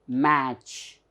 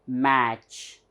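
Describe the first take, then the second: Both takes have the same delivery.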